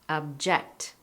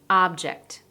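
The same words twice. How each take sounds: First: The stress is on the second syllable. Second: The stress is on the first syllable. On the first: It is a verb. "you're going to stress the second syllable" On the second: It is a noun. "I said the first syllable louder, longer, higher, and clearer"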